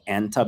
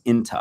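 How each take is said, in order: First: The first vowel is an open 'a' sound. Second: The first vowel is a closer 'i' sound. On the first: This is the standard form. "instead of saying anta" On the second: This is the spoken dialect form. "in dialect, ... you just say inta"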